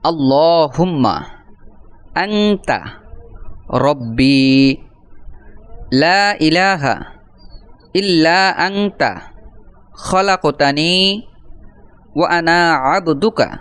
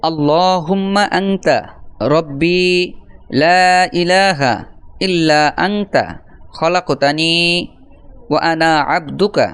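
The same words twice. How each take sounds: First: Slow, drawn-out recitation with long pauses between phrases; broken into pieces. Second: Drawn-out recitation with shorter pauses, phrases linked; recited all together. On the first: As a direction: recite piece by piece for learners to follow. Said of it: "আমি ভেঙ্গে ভেঙ্গে". (ভেঙ্গে ভেঙ্গে, থেমে থেমে ধীর টানা উচ্চারণ) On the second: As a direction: join the phrases into one continuous recitation. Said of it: "আমি একসাথে একবার বলে দিচ্ছি". (একসাথে টানা সুরে আবৃত্তি) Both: Shown as a demonstration.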